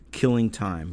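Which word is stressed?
Time. The stress falls on the word Time. It means passing the time idly. "with age, you get gentler, less murderous"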